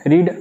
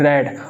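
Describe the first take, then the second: First: The vowel is long, like 'reed'. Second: The vowel is short, like 'red'. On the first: It is the present form of the verb. "First form इसकी रीड बोलेंगे हम" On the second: It is the past form of the verb. "Second form ... pronunciation change हो जाएगा, इसे हम बोलेंगे रेड"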